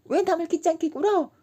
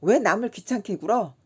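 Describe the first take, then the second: First: Much higher dainty lady voice; mimicking a lady. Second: Said in the usual way. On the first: Kim mimicking the haughty schoolgirl for laughs, high and dainty. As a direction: chirp it like a prim young lady. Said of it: "정말 꾀꼬리 같은 소리를 내었다". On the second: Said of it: "꾀꼬리 같은 소리".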